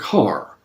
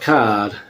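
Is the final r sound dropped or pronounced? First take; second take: pronounced; dropped. First: The final r sound is clearly pronounced. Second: The final r sound is dropped. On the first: "You actually pronounce the R there" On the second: "in New England we talk about the car"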